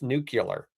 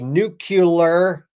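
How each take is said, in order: First: It is said as 'nu-clear', without the extra syllable. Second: It is said with an extra syllable, 'nu-cu-lar'. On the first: The speaker calls it right. "It's nuclear" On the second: The speaker calls it wrong. "I know I totally did that wrong on purpose for you guys"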